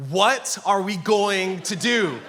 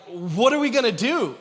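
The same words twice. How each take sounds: First: Slow, louder, drawn-out alarm; mock inner panic. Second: Higher, louder retold worry; imitating worried wife. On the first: Husband's internal dialogue on becoming a father, mock panic. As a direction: stretch each word out in comic panic. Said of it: "Internally, my dialogue is like". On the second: Wife who just found out she's pregnant, imitated worry. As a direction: lightly voice a worried wife's question. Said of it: "her first words, she was like".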